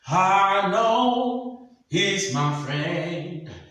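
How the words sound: It mixes nasal tone with the voice.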